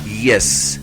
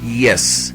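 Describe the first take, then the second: No difference in how they are said.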